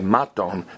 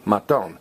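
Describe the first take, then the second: First: The stress is on the first syllable. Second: The stress is on the last syllable. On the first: The speaker calls it wrong. "Don't say maton" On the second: The speaker calls it right. "stress me, maton"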